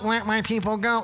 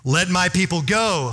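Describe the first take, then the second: First: It is said weakly, without force. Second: It is said powerfully, with force.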